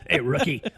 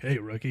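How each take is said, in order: First: Said in a gruff, tough voice. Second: Said in a softer, less tough voice. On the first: This is the original voice actor. The speaker calls it right. "that's the original. Like that's the guy you want" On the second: This is the new voice actor. The speaker calls it wrong. "not as tough"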